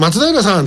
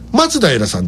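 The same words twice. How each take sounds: First: The pitch accent is not at the start. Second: The pitch accent falls at the start. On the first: The speaker calls it wrong. "松平さんって言うと返事してくれないんですよ" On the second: The speaker calls it right. "アクセントが前に来ないとダメなんですよ"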